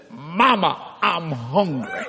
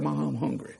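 First: Put-on slow, drawn-out child's plea; waking child. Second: Put-on soft, quick quote of a child; hushed retelling. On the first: Boy wakes from coma and calls mother, slow drawn-out words. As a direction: stretch it out like a boy just waking. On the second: Preacher retells the boy's words to mother, hushed quote. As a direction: say it small and quiet, without drawing it out.

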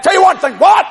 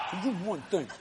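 First: Higher, louder challenge; raised quote. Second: Much softer, lower repeat; hushed reply. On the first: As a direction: call it out sharply. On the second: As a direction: drop it almost to a murmur. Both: Retold or imitated. Quarrel with wife retold.

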